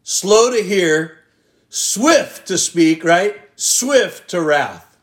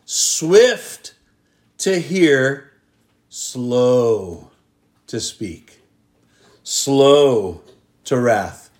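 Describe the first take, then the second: First: Slow and swift set apart, slightly slow and pointed; the wrong way, said with pointed stress on slow and swift; wrong version stressed. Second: The true teaching, swift up, slows sinking; correct version stressed. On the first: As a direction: show the backwards way we live, mock-emphatic. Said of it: "here's how we operate". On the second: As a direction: set the right order down gently, phrase by phrase. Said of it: "the implanted word to us today". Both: Shown as a demonstration.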